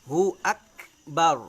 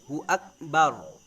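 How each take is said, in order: Both takes have the same delivery.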